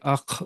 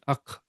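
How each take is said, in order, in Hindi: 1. kh के अंत में एक अतिरिक्त उछलती, गिरती हुई ध्वनि जुड़ती है। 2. kh साफ़ तरह से खत्म होता है, उसमें कोई उछलती ध्वनि नहीं होती। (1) "यहाँ पे अख नहीं, ... वो जो ड्रॉप लास्ट में जो ड्रॉप्स ड्रॉपिंग साउंड है ना, ... ये गलत है।" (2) "वो साउंड के साथ नहीं।"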